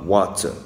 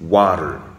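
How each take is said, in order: First: It is said with a French-style accent. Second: It is said with an American accent. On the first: The speaker calls it wrong. "Je ne dis pas water" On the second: The speaker calls it right. "je dis water"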